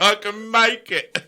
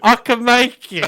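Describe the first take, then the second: First: High, slow, giggling bravado; laughing drunken confidence. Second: Put-on drunken confidence. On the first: Pretend. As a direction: say it like a tipsy daredevil. Repeats higher, laughing, slower.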